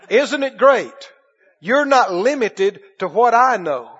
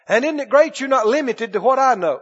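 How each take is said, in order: First: It is said slowly. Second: It is said at normal speed.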